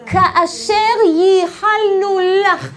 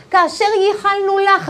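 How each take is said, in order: First: Each word of "כאשר ייחלנו לך" drawn out loudly; stretched "כאשר ייחלנו לך". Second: Said in the usual way. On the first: Shown as a demonstration. Teacher reveals the acronym, stretching "כאשר ייחלנו לך" emphatically. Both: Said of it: "ראשי תיבות".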